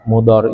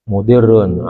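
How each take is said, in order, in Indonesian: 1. Vokal tengahnya 'a', tanpa tanwin. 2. Vokal tengahnya 'i', diakhiri tanwin. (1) "Fa fathin lalu baca fathah" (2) "boleh saja dibaca mudirrun gitu ya... menyesatkan artinya"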